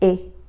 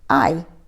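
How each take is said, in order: First: The vowel is a short 'ih' sound. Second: The vowel sounds like the word 'eye'. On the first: "the short sound of I sounds like I" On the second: "the long sound sounds like its name"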